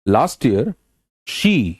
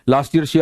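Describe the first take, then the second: First: There is a pause after "last year". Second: It runs straight on without a pause. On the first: The speaker calls it right. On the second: The speaker calls it wrong.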